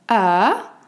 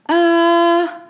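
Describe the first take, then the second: First: The pitch rises from middle to high. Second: The pitch stays high and level. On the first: "un ton montant du médium vers l'aigu" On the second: "Stable, constant, haut"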